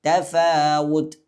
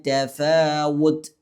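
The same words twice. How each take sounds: Both takes have the same delivery.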